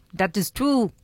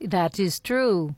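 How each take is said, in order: First: Mock Russian cartoon-spy accent; a light Boris-and-Natasha Russian accent. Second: Said in the usual way. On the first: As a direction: do a hint of a Russian cartoon villainess. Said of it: "you sound a little bit more like Natasha from Rocky and Bullwinkle". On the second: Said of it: "you sound a little bit more like Natasha".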